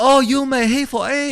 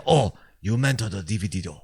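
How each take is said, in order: First: Very high, loud mock Chinese accent. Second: Mock Japanese accent at normal pitch. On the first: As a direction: imitate a Chinese accent, pitched way up. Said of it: "Meanwhile, the Chinese say". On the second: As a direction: imitate Japanese-accented English, without raising the pitch. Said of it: "the Japanese say". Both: Shown as a demonstration.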